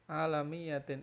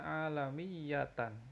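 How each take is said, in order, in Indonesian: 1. Kata ini berakhir dengan bunyi 'in'. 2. Kata ini berakhir dengan bunyi 'an'. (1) "alamiyatin ini salah" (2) "yang benar harusnya alamiyatan"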